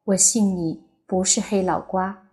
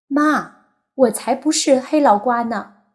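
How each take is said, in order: First: Said in the usual way. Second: Put-on high, loud little boy's protest; a small son answering his mother, high-pitched; young boy insisting, pitched up and loud; childish voice. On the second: A narrator's reading. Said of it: "自己稚嫩的声音".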